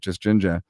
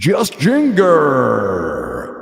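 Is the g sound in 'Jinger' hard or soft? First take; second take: soft; hard. First: The middle g is soft, as in ginger. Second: The middle g is hard, as in finger. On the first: This is how locals know the name is said. "you say it just ginger" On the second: This is how an outsider reads the spelling. "we spelt it like finger, except with a J"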